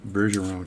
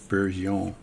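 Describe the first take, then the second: First: The name is said with an English pronunciation. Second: The name is said with a French pronunciation. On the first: The speaker calls it wrong. "I think I said Ber, Bergeron tool the other way" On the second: The speaker calls it right. "That's how you would pronounce that word, by the way, for you people that aren't French"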